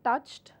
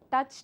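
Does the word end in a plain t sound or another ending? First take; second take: t sound; another ending. First: The ending is a plain t sound. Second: The ending is not a plain t sound. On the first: The speaker calls it right. "Touch would become touched" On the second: The speaker calls it wrong. "it is incorrect again"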